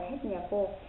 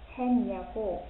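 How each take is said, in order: First: The first syllable ends in a t sound. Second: The first syllable ends in an n sound. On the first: The speaker calls it wrong. "đừng có đọc là hết nhà cô" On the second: The speaker calls it right. "chúng ta sẽ đọc là gì? Hèn nhà cô"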